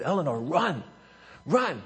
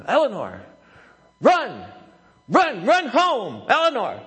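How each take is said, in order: First: Raised pitch, little extra volume; coach's restrained prompt; first urging. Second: High, loud coach's shout; reenacted sideline holler, pitch jumping up; worked-up yelling. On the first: Retold or imitated. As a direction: mildly urge a runner on. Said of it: "I said". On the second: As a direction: urgently yell a runner home. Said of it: "I'm getting a little w-, worked up".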